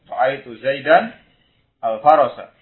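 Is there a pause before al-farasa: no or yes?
yes. There is a short pause before al-farasa. The speaker calls it right. "Mungkin ada jeda sejenak karena dia baru sadar kalau salah"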